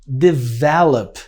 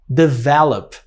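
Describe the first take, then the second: No difference in how they are said.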